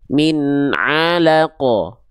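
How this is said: The ain is made with air through the nose. The speaker calls it wrong. "karena yang kedua tadi huruf ainnya masih"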